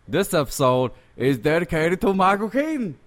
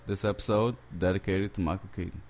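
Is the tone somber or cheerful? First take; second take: cheerful; somber. First: It is said in a cheerful, smiling tone. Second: It is said in a somber tone.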